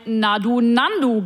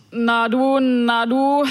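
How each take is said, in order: First: "Nandu" said as one word like the bird's name; Nandu reading. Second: Put-on drunken slur. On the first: Retold or imitated. Guessing what the drunk bus passenger really slurred, clearly spoken. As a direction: say "Na du, Nandu" with the second run together as "Nandu". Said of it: "Es könnte aber auch ein". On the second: Drunk man on the night bus slurring at her. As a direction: slur "Na du, na du" like a drunk, words running into each other. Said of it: "lallte mir ein Daunenjackenträger".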